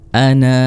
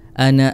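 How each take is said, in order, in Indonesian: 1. Vokal akhirnya dipanjangkan. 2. Vokal akhirnya pendek, langsung bersambung. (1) "kalau berhenti ana gitu, jadinya dibaca panjang nanya" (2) "Kalau dibaca wasol atau terus, ... na-nya jadi e, dibaca pendek"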